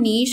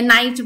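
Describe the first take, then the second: First: It has a long 'ee' vowel and ends in 'sh'. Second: It has an 'eye' vowel and ends in 'ch'. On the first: The speaker calls it right. "इसका correct pronunciation नीश होता है" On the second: The speaker calls it wrong. "बहुत लोग इसको गलत भी pronounce करते हैं"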